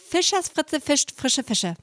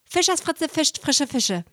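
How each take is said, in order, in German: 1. Der Satz wird schnell gesprochen. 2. Der Satz wird sehr schnell gesprochen. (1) "Noch schneller" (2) "Und jetzt ganz, ganz schnell"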